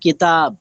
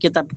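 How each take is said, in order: First: The second vowel is drawn out long. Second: The second vowel is short, not drawn out. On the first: This is the Urdu way of saying it. "Urdu থেকে বলতে গেলে বলতে হবে কিতাব" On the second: This is the Bengali way of saying it. "আর বাংলায় কেতাব"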